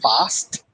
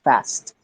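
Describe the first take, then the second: First: It is said with a British-leaning pronunciation. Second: It is said with an American-leaning pronunciation. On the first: The speaker calls it wrong. "I would not say fast" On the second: The speaker calls it right. "I would say fast"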